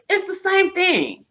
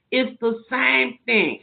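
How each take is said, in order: First: It's the same thing, lifted high on same; emphatic. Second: It's the same thing, said slowly and settled; slow it down to drive it home; slow repeat. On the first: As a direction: push same up high, insisting. First take, emphatic high. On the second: Second take, slower. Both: Real, not acted.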